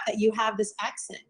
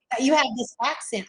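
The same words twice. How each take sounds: First: Said in the usual way. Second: Put-on playful try at a Southern accent; tentative imitation of a Southern accent; attempted Southern accent. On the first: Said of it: "I'm not gonna do it". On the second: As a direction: echo it with a light Southern twang. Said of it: "I'm not gonna do it. I'm gonna embarrass".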